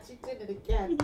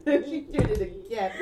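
First: Said in the usual way. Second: Slower, laughing through words. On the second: Real, not acted. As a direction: say it while cracking up.

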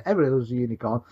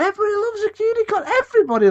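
First: Said in the usual way. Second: High, fast gushing; gushing enthusiasm. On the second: Real, not acted. Arguing everybody loves a unicorn, gushing. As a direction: hype it up in a high, rushed voice.

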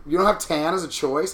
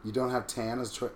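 First: Rising, disbelieving question; can't believe tan is missing; louder puzzled repeat; incredulous. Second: Said in the usual way. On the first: Real, not acted.

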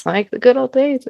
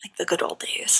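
First: Mock nostalgic. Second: Breathy unvoiced whisper. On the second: Whispering a wry aside to her cohost. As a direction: whisper it under your breath.

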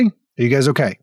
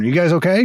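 First: Said in the usual way. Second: Mock concern. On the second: Shown as a demonstration.

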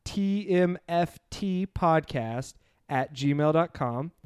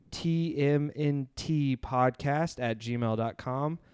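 First: "T M F T" spelled slowly letter by letter, with F as the third letter; corrected letters. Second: "T M N T" spelled slowly letter by letter, with N by mistake; wrong letters. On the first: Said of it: "I apologize. It's Too Much Free Time Podcast". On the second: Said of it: "I messed that up". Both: Real, not acted.

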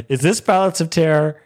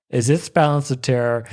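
First: Higher, excited realization; growing excitement. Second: Said in the usual way. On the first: Retold or imitated. Fan recognizing a classic episode, growing excitement. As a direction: ask it higher, as it dawns on you. Repeats question with rising excitement.

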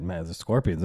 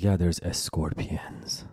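First: Said in the usual way. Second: Lightly imitated Persian accent, slowed, saying escorpions with an added e; a hint of mom's Persian accent on escorpions; mom's Persian accent, gently mocked. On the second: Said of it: "she does have some Persian accent".

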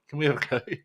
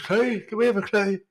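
First: Said in the usual way. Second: High mock nagging for a clue; whiny nagging. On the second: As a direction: imitate pestering, pitched up. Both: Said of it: "every twenty minutes going on".

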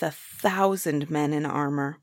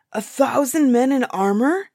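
First: Said in the usual way. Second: High, loud horrified question; frightened giant's outcry; terrified. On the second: A narrator's reading. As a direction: echo it in alarm. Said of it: "The giant was terrified".

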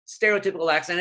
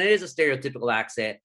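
First: Said in the usual way. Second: "is" leaned on hard, then a quick finish; stress on IS. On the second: Real, not acted. Guest conceding on a podcast, "is" stressed. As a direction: concede it firmly, landing on "is". Insists it really is stereotypical.

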